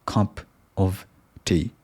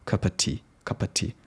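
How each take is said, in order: First: "cup of tea" with a full "o" in "of" and a clear t; each word fully spelled out; "cup of tea" said without any schwa; full vowels. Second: "cup of tea" run together as "cuppa tea", softer; "cup of tea" with a weak schwa "of"; schwa reduced. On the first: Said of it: "I tend to say". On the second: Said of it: "I need to pronounce cup of tea". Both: Shown as a demonstration.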